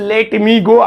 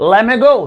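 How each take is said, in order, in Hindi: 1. दोनों शब्द पूरे और अलग-अलग बोले जाते हैं। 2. दोनों शब्द मिलकर एक छोटा शब्द बन जाते हैं। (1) "पहले बोलते थे" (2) "आप कैसे बोलेंगे लेमे गो"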